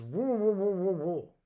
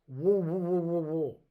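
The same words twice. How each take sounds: First: Mumbled through worms, higher and louder, pushing it harder; insistent mouthful mumble. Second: Mumbled through a mouthful of worms, a bit higher and louder; mouth full of worms. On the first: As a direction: repeat it through a full mouth, more insistent. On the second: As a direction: say it with your mouth stuffed full. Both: Retold or imitated. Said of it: "spits a mouthful of worms out".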